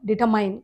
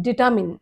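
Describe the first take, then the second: First: డిటర్మైన్ ending like "mine"; the usual wrong "mine" ending on డిటర్మైన్; common mispronunciation. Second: డిటామిన్ ending in short "min"; long "taa", short "min" in డిటామిన్; corrected pronunciation. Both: Shown as a demonstration. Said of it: "అది డిటర్మైన్ కాదు".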